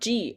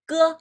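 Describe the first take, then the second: First: It starts with a soft j sound. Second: It starts with a hard g sound. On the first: The speaker calls it wrong. "this one is not G" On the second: The speaker calls it right. "like guys"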